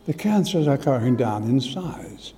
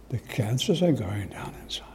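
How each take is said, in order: First: Said in the usual way. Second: Hushed, unvoiced, in disbelief; awed whisper. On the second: Repeating the doctor's news to the congregation, in an awed whisper. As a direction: breathe it out like a secret miracle.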